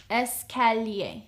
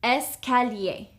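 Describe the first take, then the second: First: Escalier said slower for the learner to copy; Escalier, stretched and careful; slow teaching echo of Escalier; slower repeat. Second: Said in the usual way. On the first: Shown as a demonstration. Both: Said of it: "How would you say stairs?".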